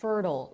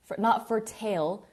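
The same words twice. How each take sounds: First: Fertile ending like turtle; right pronunciation. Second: Fertile with the ending said like tail; wrong pronunciation. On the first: Teacher showing students the right way to say fertile. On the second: Teacher showing students the wrong way to say fertile. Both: Shown as a demonstration. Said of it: "It's pronounced like turtle".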